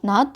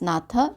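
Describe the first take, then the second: First: The name ends on a consonant, no vowel. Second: The name ends with an added final vowel. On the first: The speaker calls it right. "we are going to pronounce as pronounce as Ram Nath" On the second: The speaker calls it wrong. "we should not pronounce this a"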